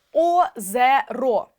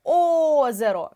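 First: Озеро with the first О stretched and loud; stress on first O. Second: Озеро said slowly, loud on the first О; stress on first O. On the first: Teacher shows pupils the stressed vowel, slow and loud. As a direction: slowly lean on the first О of Озеро. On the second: Teacher repeats the word for pupils, stressing the first О. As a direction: stretch Озеро and punch the first О. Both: Shown as a demonstration. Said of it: "У нас падає наголос на О".

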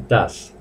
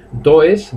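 First: "das" with an open a, for English does; correct third-person sound. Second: "does" read as "do-es"; spelled-out mispronunciation. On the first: Teacher shows the correct sound, "das" as one syllable. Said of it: "en tercera persona se pronuncia". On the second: Teacher shows the mistake, "does" as Spanish "do-es". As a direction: sound the o and e separately in "does". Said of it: "no se dice". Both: Shown as a demonstration.

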